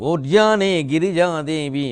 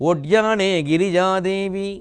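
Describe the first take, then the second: The two takes are said the same way.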